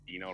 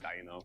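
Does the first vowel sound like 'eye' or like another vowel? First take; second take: other; eye. First: The first vowel does not sound like 'eye'. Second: The first vowel sounds like 'eye'. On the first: The speaker calls it wrong. "we've been saying Dino wrong this whole time" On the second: The speaker calls it right. "It's technically Dino"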